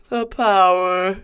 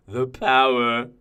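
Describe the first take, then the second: First: High, slow, drawn-out relish; rapturous, lingering gloat; exulting in power. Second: Slow, hushed relish at normal pitch; restrained, drawn-out gloat; savouring power. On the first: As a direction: revel in it, stretching the words out. Revels in power over insects. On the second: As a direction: linger on it, contained and satisfied. Savours the victim's death. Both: Acted.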